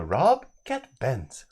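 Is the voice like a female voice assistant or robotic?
female assistant. It is said in a female assistant-like voice. "the like Alexa kind of voice reading that out"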